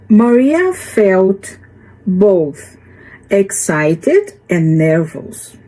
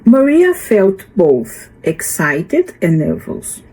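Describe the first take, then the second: First: The sentence is read at a slower pace. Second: The sentence is read at a faster pace.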